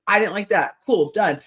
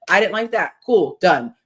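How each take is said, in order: First: Brisk matter-of-fact close; breezy and final. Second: Louder, brisk matter-of-fact close; breezy and final. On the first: Partner answering a complaint simply, breezy and final. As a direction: state it and move on. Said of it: "if you have an issue with me". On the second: Ideal partner stating a complaint simply, breezy and final. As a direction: say it and shut the topic. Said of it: "then you just be like". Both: Retold or imitated.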